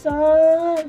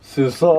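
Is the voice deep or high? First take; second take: high; deep. First: It is said in a high-pitched voice. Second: It is said in a very deep voice.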